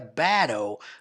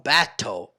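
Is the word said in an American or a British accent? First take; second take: American; British. First: It is said in an American accent. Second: It is said in a British accent. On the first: "se fosse um sotaque americano, seria battle" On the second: "Como é britânico, eles falam battle"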